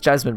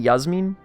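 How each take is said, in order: First: The name begins with a J sound. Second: The name begins with a Y sound. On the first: This is the usual English form of the name. "the English pronunciation is Jasmine" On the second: This is the original form of the name. "I think it's actually Yasmin"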